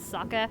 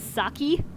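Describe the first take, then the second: First: The word ends in an open 'eh' sound. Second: The word ends in a long 'ee' sound. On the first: The speaker calls it right. "people around the world mispronounce if they don't know how to speak Japanese is sucker" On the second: The speaker calls it wrong. "They either say it as saki"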